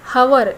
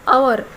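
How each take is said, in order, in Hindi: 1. यह शब्द h ध्वनि से शुरू होता है। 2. यह शब्द स्वर ध्वनि से शुरू होता है। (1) "हवर इस तरह ना पढ़ते हुए" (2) "अवर इस तरह पढ़ते हैं"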